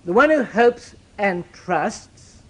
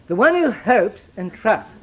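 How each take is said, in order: First: Even more drawn out, stress on "who"; slow right down on "who"; patient, heavy restatement; slower emphasis. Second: Drawn out, each word weighed; deliberate and measured; slow emphasis. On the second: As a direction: lay it down slowly. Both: Shown as a demonstration. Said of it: "let's be clear about this".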